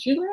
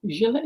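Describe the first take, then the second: First: Gillet tried with a hard G, as in "get"; alternative name pronunciation. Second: Gillet tried with a soft G, as in "gel"; alternative name pronunciation. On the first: Host checking a viewer's name, Gillet with hard G. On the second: Host checking a viewer's name, Gillet with soft G. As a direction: say Gillet starting with a J sound. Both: Shown as a demonstration. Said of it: "is it Gillet or Gillet".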